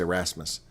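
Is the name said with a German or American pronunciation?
American. The name is said with an American pronunciation. "They probably say Erasmus"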